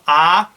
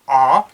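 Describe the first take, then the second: First: The letter is said as its English name. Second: The letter is said with its Klingon sound. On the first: The speaker calls it wrong. "So not A" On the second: The speaker calls it right. "In Klingon, it, this is pronounced A"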